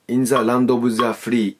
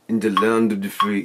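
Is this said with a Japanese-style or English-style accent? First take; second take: Japanese-style; English-style. First: It is said with Japanese-style accent and open lips. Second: It is said English-style with the lips biting in. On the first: The speaker calls it wrong. "日本語の発音だと多分ね、アクセントが真ん中なんだよね。それやってみると" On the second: The speaker calls it right. "だから噛み込まなきゃいけない。"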